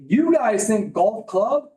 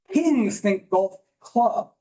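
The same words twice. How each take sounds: First: Golf club said slow and flat, the small idea; slow, matter-of-fact "golf club"; plain golf club. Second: "golf club" drawn out slowly with a rising, grand tune. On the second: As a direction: say "golf club" like it's a whole estate. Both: Shown as a demonstration. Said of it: "contrast small and big thinking".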